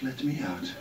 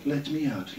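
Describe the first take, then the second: First: The same plea, softer and fading away; fading echo. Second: A trapped voice pleading to get out; voice in my head. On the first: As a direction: let it trail off like a distant echo. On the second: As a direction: call out like someone locked inside. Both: Retold or imitated. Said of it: "people running around in my head going".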